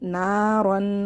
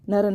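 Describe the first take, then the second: First: The first vowel is stretched long. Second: The first vowel is short and rushed. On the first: The speaker calls it right. "इसको एक अलिफ पर खींच के पढ़ेंगे" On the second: The speaker calls it wrong. "बहुत से लोग जल्दी मिला के पढ़ देते हैं, नरन पढ़ देते हैं"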